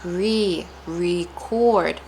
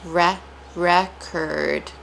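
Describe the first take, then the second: First: Re held as ree, then record as ree-CORD; stress on re. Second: Re said reh, then record as REK-erd; syllable breakdown. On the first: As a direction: slowly build record from a long ree. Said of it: "placing a lot of stress on re". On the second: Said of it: "ending of the word curd". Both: Shown as a demonstration.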